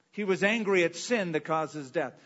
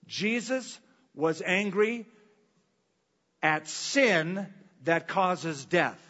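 First: Said in the usual way. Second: Slow, every word weighed, stress on "sin"; drawn out "Jesus was angry at sin" with "sin" hit hard; slow emphatic. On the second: Shown as a demonstration. Preacher asks the church to listen carefully, slow weighty emphasis. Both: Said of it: "Listen carefully".

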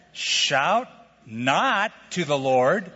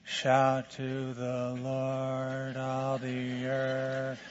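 First: Slow, with "not" pushed out and rising; stress on not. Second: Sung very softly and slowly, far quieter; timid mumbled singing. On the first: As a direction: lean on "not" and drag the line. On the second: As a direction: sing it half-heartedly under your breath. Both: Shown as a demonstration. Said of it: "I don't think God's into".

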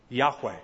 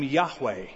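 First: "Yahweh" said slowly as YAH-weh, lower and apart; saying the name. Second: "Yahweh" spoken as YAH-weh at the end of a quote; saying the name. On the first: Preacher teaching the divine name, pronouncing "Yahweh" slowly. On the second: Preacher voicing God naming himself, "Yahweh" as YAH-weh. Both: Shown as a demonstration. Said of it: "we believe it's pronounced".

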